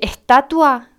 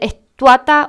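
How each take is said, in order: First: The word ends with the sounds 'tatua'. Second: The word ends with the sounds 'tuata'. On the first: The speaker calls it right. "En vez de decir estatua" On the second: The speaker calls it wrong. "dicen estuata"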